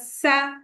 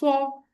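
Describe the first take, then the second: First: The s sound is light and whistling. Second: The s sound is heavy and deep. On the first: The speaker calls it wrong. "Never say it ... if you are making the sound light and filled with the whistle" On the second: The speaker calls it right. "Sod is a heavy letter"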